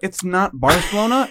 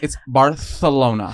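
First: It is said the plain American way. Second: It is said the Castilian Spanish way, lisped 'th'.

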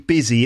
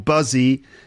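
First: The first vowel sounds like an i sound. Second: The first vowel sounds like a u sound. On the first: The speaker calls it right. "It's actually busy. It sounds like it's got an I in it" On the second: The speaker calls it wrong. "So it's not buzzy or buzzy, despite the U"

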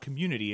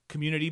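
First: The word ends plainly, like ordinary community. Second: The last syllable is stressed, sounding like tea. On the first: The ordinary word community. The speaker calls it wrong. "it's not community" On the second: The event's name, a pun on tea. The speaker calls it right. "I'm very deliberate in how I pronounce it"

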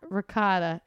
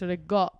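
First: It is said in a standard pronunciation. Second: It is said in an Italian-Brooklyn pronunciation. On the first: "It's not ricotta" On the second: "Italian / Brooklyn pronunciations"

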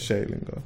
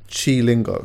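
First: The first syllable sounds like 'shay'. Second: The first syllable sounds like 'chee'. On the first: The speaker calls it right. "It's Shay Lingo" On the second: The speaker calls it wrong. "I said Chi Lingo. It's not Chi Lingo"

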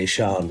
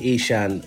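First: The name has its original pronunciation. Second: The name has an anglicized pronunciation. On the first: This is how the name is said among everyone else. "I say Ishan when I'm with everyone else"

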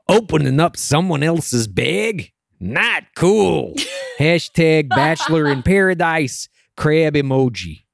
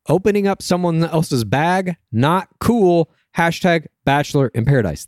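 First: It is read in a put-on accent. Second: It is read in his normal accent.

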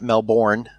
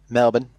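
First: The second syllable is fully pronounced as spelled. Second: The second syllable is short and reduced. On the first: The speaker calls it wrong. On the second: The speaker calls it right.

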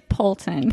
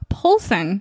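First: The name is said with a T sound. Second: The name is said with an S sound. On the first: The speaker calls it right. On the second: The speaker calls it wrong.

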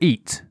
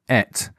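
First: It is said with a long 'ee' vowel. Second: It is said with a short 'e' vowel.

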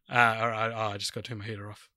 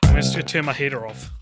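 First: The voice is a relaxed, everyday speaking voice. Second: The voice is a polished, put-on broadcast voice. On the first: The speaker does not expect to be recorded. "if I didn't intend that to be recorded, it'd sound like this" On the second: The speaker knows this is being recorded. "I've got my podcast voice on"

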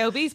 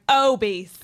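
First: The first syllable O is short and light. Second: The first syllable O is long and leaned on. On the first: "I would say obese" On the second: "it's just the way you say it is like obese"

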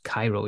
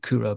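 First: It is pronounced like the city Cairo. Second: It is pronounced like 'Kura'. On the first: This is how the spelling looks. "it looks like Cairo instead of Kura" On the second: This is how Finnish speakers pronounce it. "which we know how to pronounce now"

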